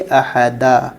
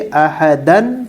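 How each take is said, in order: First: The word ends with a long a vowel. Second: The word ends with an n sound. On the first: "वक्फ करना हो तो एक ज़बर के साथ अलिफ पढ़ेंगे" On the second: "दो ज़बर"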